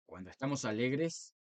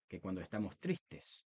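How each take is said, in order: First: Lightly cheerful, lifting at the end; happy voice. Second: Lower, softer, falling into sadness; sad voice. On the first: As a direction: show a touch of joy in the voice. (con un toque de alegría) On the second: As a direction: let the voice sink as if sad. (voz triste, baja y apagada) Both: Shown as a demonstration. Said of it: "nuestra voz no es la misma".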